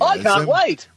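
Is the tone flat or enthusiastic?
enthusiastic. It is said with more enthusiasm.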